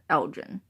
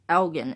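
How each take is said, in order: First: The name is said the Illinois way. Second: The name is said the Scottish way. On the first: The speaker calls it wrong. "In the town of Elgin in Illinois, they pronounce it Elgin" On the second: The speaker calls it right. "when it's really technically pronounced Elgin"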